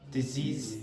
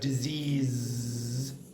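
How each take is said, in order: First: The middle consonant is a hissing s sound. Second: The middle consonant is a buzzing z sound. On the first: The speaker calls it wrong. "Spanish does not have that z sound, so you're going to get disease" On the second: The speaker calls it right. "instead of disease"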